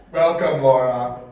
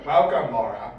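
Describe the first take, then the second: First: Low, menacing villain greeting; Dark Lord voice. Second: Deep, low evil overlord; Dark Lord voice. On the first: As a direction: greet her like an evil overlord. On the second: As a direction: drop into the villain's deep voice. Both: Acted. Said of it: "that's my Mondor Dark Lord voice".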